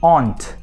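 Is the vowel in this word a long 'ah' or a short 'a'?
long ah. The vowel is a long open 'ah' sound. "from England, or from Scotland, they might say ... aunt para tia"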